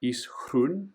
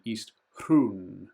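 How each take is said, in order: First: Said in the usual way. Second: "Hrun" with the u drawn out long. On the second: Shown as a demonstration. Explaining map names, lengthening the u of Hrun. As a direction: hold the vowel of "Hrun" longer. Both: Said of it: "we've got the accent".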